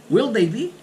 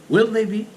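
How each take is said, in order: Both takes have the same delivery.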